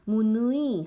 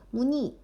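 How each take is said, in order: First: The last vowel is the diphthong 'ui'. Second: The last vowel is a plain 'i'. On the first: The speaker calls it wrong. "하지 않고" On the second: The speaker calls it right. "이렇게 이로만 발음한다는 거야"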